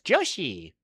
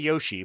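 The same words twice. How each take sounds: First: The name begins with a J sound. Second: The name begins with a Y sound. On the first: The speaker calls it right. "Can you hear the J in my voice?" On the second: The speaker calls it wrong. "I want to say Yoshi, but I know it's not Yoshi"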